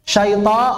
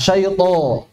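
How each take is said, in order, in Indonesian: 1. Bunyi t-nya tipis dan ringan. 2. Bunyi t-nya tebal dan penuh.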